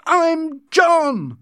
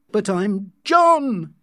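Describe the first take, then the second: First: Very high, loud furious cry; angry shout. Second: High, drawn-out angry protest; angry shout. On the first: John losing control at Linda, furious shout. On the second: John to Linda who fails to know him, angry shout. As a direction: raise your voice in angry frustration. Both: A narrator's reading. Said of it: "he shouted angrily".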